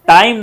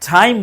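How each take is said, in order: First: The first consonant has no puff of air. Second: The first consonant has a strong puff of air. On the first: The speaker calls it wrong. "टाइम नहीं" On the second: The speaker calls it right. "टाइम बोलेंगे"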